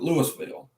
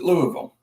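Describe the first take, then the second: First: The name is said the Alabama way. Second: The name is said the Kentucky way. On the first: This is how the speaker's own state says it. "We pronounce it Louisville" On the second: This is how people in the other state say it. "we don't pronounce it Louisville"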